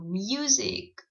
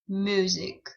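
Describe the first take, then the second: First: A 'y' sound comes before the vowel. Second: No 'y' sound comes before the vowel. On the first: The speaker calls it right. "Also have Y sound before the U. Example" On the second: The speaker calls it wrong.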